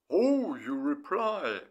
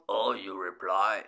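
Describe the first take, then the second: First: Slow, drawn-out happy "Oh, you reply"; a touch louder, savoring that she finally answered; pleased message. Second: Lower, louder "Oh, you reply" snapped back; sharp retort. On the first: To his girlfriend, glad she replied, slow and pleased. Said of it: "I wrote her". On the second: Girlfriend firing his words back at him, mock snappish. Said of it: "she shot". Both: Retold or imitated.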